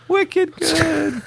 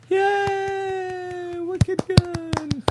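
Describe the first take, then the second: First: Put-on much higher squeaky "Wicked good" with a Boston accent; New England cheer. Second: Put-on much higher squeaky cheer in a Boston accent; fake applause. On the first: Host repeating the New England fake applause, squealed. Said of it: "the New England fake applause". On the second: Host mimicking a New England crowd's fake applause. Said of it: "this is where that, like, fake applause comes in".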